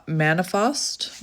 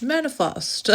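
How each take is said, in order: First: "manifest?" said slowly, unsure, with a rising question tune. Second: "Manifest." said high and sure, with a firm falling tune; confident reading. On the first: Reader squinting at a card she can't quite read, "manifest?" asked slowly with a rise. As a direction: puzzle over "manifest?" like a misread card word. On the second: Reader realising what the card says, "Manifest." high and sure, falling. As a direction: land "Manifest." like the answer just clicked. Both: Real, not acted. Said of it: "Maybe you're making up words".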